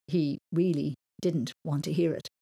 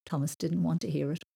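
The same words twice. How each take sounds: First: "really" stressed and set apart by slight pauses; emphatic, deliberate "really". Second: Said in the usual way. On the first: A narrator's reading. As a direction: lean firmly on "really", spacing out the words. Sentence repeated with added emphasis.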